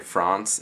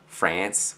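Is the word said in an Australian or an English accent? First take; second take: English; Australian. First: The word is said with an English-style accent. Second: The word is said with an Australian accent. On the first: "I try and incorporate some actual speaking, like English kind of speaking" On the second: "which you're meant to say in Australia"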